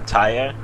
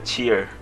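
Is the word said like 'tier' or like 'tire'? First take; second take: tire; tier. First: The word sounds like 'tire'. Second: The word sounds like 'tier'. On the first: "I'm used to say tire" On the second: "I heard people say it's a tier"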